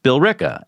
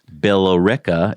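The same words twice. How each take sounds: First: It is said with the local pronunciation. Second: It is said the way it is spelled. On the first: The speaker calls it right. "is pronounced" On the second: The speaker calls it wrong. "not the way it's spelled"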